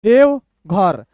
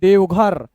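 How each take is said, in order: First: Slow, clear gap between halves; broken in two. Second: Said in the usual way. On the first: Shown as a demonstration. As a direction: read it two letters at a time. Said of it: "दो दो अक्षर तोड़ तोड़ के". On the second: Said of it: "ऐसे पढ़ेंगे".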